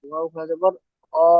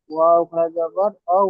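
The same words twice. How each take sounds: First: অ said as a short pure o sound; corrected vowel অ. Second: ঔ said as a gliding ou diphthong; wrong vowel ঔ. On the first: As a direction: end ওয়াও খাড়া জবর অ on a pure o. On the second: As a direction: end ওয়াও খাড়া জবর ঔ on the ou glide. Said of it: "ওয়াও নয়". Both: Real, not acted.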